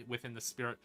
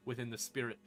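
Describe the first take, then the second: No difference in how they are said.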